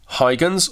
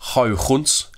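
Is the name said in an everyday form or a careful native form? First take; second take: everyday; native. First: The name is said in a casual everyday way. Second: The name is said in a careful native way. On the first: The speaker calls it wrong. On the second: The speaker calls it right.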